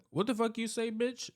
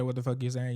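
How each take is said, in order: First: Much higher, over-the-top indignant snap; exaggerated outrage. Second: Said in the usual way. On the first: Shown as a demonstration. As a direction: ham up the offended comeback. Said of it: "I gotta over-exaggerate". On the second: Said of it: "Basically, she didn't call her a bitch".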